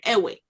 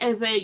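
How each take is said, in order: First: The middle consonant is a w sound. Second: The middle consonant is a v-like sound. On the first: This is the name outsiders gave them. The speaker calls it wrong. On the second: This is the name the people call themselves. The speaker calls it right.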